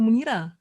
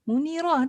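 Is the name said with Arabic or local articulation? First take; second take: local; Arabic. First: The name is said with plain local articulation. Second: The name is said with careful Arabic articulation. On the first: The speaker calls it wrong. "bukan Munira" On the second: The speaker calls it right. "Munirah tau"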